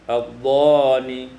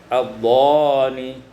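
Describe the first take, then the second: No difference in how they are said.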